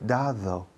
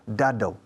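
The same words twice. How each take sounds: First: The second D is soft and weak. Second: The second D is hard like the first. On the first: The speaker calls it right. "la primera D es una D dura. Da, la segunda D es una D suave" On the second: The speaker calls it wrong. "la D al principio es, y la en medio suenan igual, dado, de dura"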